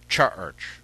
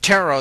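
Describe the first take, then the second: First: The word begins with a CH sound. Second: The word begins with a T sound. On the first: "It had a C H sound" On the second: "they didn't use the T sound"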